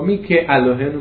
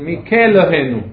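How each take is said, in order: First: The prefix keeps its own vowel before the alef. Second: The prefix merges with the alef's vowel. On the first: The speaker calls it wrong. "לא מי כאלוהינו" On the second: The speaker calls it right. "בדיוק"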